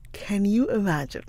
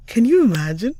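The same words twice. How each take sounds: First: Said in the usual way. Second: Loud, high can you imagine with a rising you; excited. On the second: Real, not acted. Vlogger tells viewers about a Yiddish accent class, excited.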